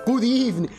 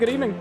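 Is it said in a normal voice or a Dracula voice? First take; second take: Dracula; normal. First: It is said in a Dracula voice. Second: It is said in his normal voice.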